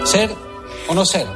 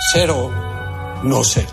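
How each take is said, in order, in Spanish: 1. Se habla con una voz natural y sencilla. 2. Se habla con una voz exageradamente articulada y teatral. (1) "Monólogo de Hamlet es normal" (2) "de actor raro, de hablar raro"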